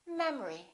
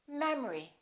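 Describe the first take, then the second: No difference in how they are said.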